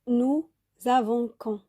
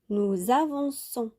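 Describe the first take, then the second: First: The c is pronounced as a hard k sound. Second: The c is pronounced as a soft s sound. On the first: The speaker calls it wrong. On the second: The speaker calls it right.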